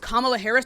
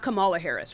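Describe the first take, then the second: First: The stress in Kamala falls in its usual place. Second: The stress in Kamala is shifted to another syllable. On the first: The speaker calls it right. "Her name is" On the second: The speaker calls it wrong. "You're putting the emphasis on the wrong part of the word"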